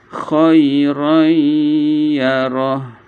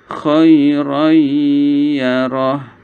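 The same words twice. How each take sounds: The two takes are said the same way.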